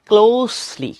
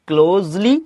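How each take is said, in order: First: The middle consonant is a hissing s sound. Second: The middle consonant is a buzzing z sound. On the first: The speaker calls it right. "এই যে দন্তস উচ্চারণ হবে" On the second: The speaker calls it wrong. "কেউ কেউ বলে ক্লোজলি"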